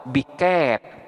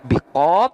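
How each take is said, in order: First: The long vowel leans toward an e sound. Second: The long vowel is a plain open a. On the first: "atau biket" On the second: "boleh dibaca biqad"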